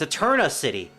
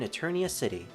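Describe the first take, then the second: First: The name has no extra 'ee' sound before the end. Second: The name has an extra 'ee' sound before the end. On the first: The speaker calls it right. "it turns out it's Eterna" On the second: The speaker calls it wrong. "I've always pronounced it as Eternia City"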